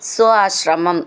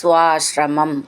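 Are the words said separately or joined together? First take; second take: separate; joined. First: The two words are said separately. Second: The two words are joined into one.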